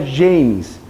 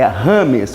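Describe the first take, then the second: First: The name is said with English sounds. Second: The name is said with Spanish sounds. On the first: This is the American way of saying it. The speaker calls it wrong. "não é James" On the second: This is the Colombian way of saying it. The speaker calls it right. "é Rames"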